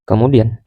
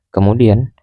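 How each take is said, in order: No difference in how they are said.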